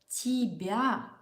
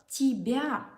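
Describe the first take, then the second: Both takes have the same delivery.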